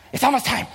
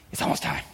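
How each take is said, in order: First: Said in the usual way. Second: Whispered, no voice at all; excited whisper. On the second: Retold or imitated. A boy whispering to his brother at the door. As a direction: hush it to your brother.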